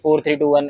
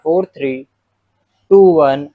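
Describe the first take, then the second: First: All four digits run together without a pause. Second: A short pause splits the digits into pairs. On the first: The speaker calls it wrong. "एक साथ बोल दिया" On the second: The speaker calls it right. "ऐसे रुक के आपको बोलना होता है"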